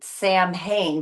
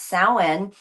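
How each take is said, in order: First: Said as two plain syllables, sam and hain. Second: Said with sounds unlike sam and hain. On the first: The speaker calls it wrong. "It's actually spelled S A M H A I N" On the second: The speaker calls it right. "but it's pronounced Samhain"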